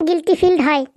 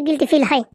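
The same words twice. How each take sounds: First: Correcting a mishearing, guilty ফিল pronounced with more force; emphatic repetition. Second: Said in the usual way. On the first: Acted. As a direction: repeat guilty ফিল with each word firmly stressed. Repeats it after being misheard.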